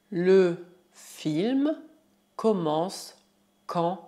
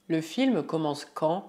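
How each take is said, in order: First: Slow, pause after each chunk; word by word. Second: Said in the usual way. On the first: Shown as a demonstration. Teacher models French for learners, word by word. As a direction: dictate the question piece by piece.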